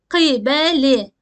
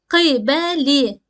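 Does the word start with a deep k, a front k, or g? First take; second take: deep k; deep k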